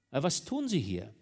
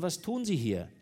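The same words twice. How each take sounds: First: Said in the usual way. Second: Pressing, higher and louder; repeated louder. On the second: A narrator's reading. Commissioner repeats his question to the wife, louder. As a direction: demand it a second time. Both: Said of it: "Der Beamte wiederholte".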